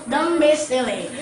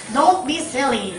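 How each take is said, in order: First: "Don't" turned into "dom" before "be"; assimilated pronunciation. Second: "Don't" said with a clear n-t before "be"; everyday Philippine pronunciation. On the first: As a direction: say "Don't be silly" as "dumb-be silly". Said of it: "in the rule, you must pronounce it". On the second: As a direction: say "Don't be silly" with "Don't" fully sounded. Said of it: "here in Philippines ... used to pronounce it". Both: Shown as a demonstration.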